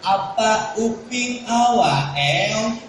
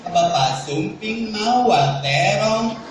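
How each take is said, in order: First: Put-on "Apa uping awa eong" slow, lisping toddler talk with consonants dropped; cadel baby talk. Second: Said in the usual way. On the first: Shown as a demonstration. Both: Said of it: "udah ngomong cadel".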